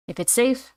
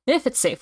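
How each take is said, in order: First: SAFE rising as if asking; questioning tune. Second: IF stressed, SAFE not rising; conditional tune. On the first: Reader's first take of the line, questioning rise on SAFE. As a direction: lift SAFE up at the end like a question. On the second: Reader corrects the line, conditional stress on IF. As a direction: lean on IF and let SAFE settle without a question. Retake after "oh. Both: Acted.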